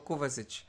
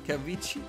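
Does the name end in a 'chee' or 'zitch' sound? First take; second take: zitch; chee. First: The name is said as 'Kovazitch', ending in 'zitch'. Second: The name is said as 'Kaveetchi', ending in 'chee'. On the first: The speaker calls it right. "الناس قالت لي هو كوفازيتش" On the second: The speaker calls it wrong. "انا كنت بنطقه"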